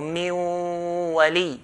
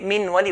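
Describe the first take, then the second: First: The n merges into a nasalized w sound. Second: The n sound is pronounced clearly before the w. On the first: The speaker calls it right. "the waw with the ghunna" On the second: The speaker calls it wrong. "If we say min wali, we're making idhar, we're making it clear"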